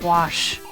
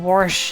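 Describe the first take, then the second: First: The word has no r sound before the sh. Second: The word has an r sound before the sh. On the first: This is the usual way of saying it. "instead of "wash."" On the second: This is how the West Virginian accent says it. "saying "warsh""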